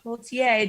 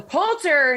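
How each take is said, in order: First: The name ends in a 'tier' sound. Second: The name ends in a plain 'ter' sound. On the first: The speaker calls it wrong. "not Poultier, don't know why I read it that way" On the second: The speaker calls it right. "So Poulter"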